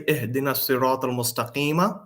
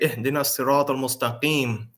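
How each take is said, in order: First: The last word ends with a final vowel. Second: The last word ends without a final vowel. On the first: The speaker carries on without stopping. "Why didn't I say" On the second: The speaker is stopping at the end of the verse. "when you stop, you don't pronounce the last uh, vowel"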